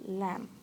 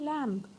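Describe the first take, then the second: First: The final b sound is silent. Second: The final b sound is pronounced. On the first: The speaker calls it right. "यहाँ पे हमारा बी silent होता है" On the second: The speaker calls it wrong. "जिसे हम लोग सब पढ़ते हैं Mary had a little लैम्ब, but it's wrong"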